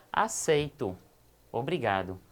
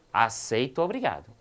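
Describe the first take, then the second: First: "Aceito," then a pause, then a lower, grateful "obrigado"; pause at the comma. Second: "Aceito obrigado" with no break, rising into "obrigado"; run together. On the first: Teacher showing the comma version, accepting gladly. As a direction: stop after "Aceito" and drop low for "obrigado". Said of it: "percebo que eu tenho uma pequena pausa". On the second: Teacher showing the version without the comma. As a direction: glide straight into "obrigado" without stopping. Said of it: "ele aceita de forma impositiva". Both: Shown as a demonstration.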